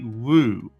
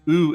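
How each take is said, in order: First: The vowel is said with a w onset. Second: The vowel is said without a w onset. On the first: This is how some coastal dialects say it. "in coastal areas, in some dialects ... it would be woo" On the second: This is the usual pronunciation. "instead of pronouncing it oo"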